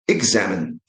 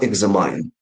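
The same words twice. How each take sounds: First: The last syllable sounds like min. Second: The last syllable sounds like mine. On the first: The speaker calls it right. "the verb is examine" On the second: The speaker calls it wrong. "not examine. Yeah, we have uh, the pronoun mine"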